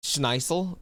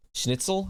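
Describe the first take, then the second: First: Schneitzel said with a long "ai" like "shnight-sel"; mispronounced. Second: Schnitzel with a short "i", "shnit-sel", rising; corrected pronunciation. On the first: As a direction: read it wrong as Schneitzel, unsure. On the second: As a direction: try Schnitzel properly as a question. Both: Shown as a demonstration. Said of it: "How do you say that?".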